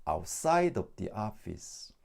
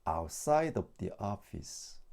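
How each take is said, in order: No difference in how they are said.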